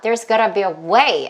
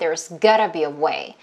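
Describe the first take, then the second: First: The word way carries the stress. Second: The word gotta carries the stress. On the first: "이렇게 way만 힘줘서 소리 낼 수도 있고요" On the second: "gotta에다가 힘을 줄 수도 있어요"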